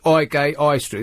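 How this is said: It sounds common, with the H sounds dropped.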